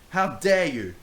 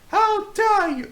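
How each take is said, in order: First: It is said in his normal voice. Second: It is said in a put-on character voice.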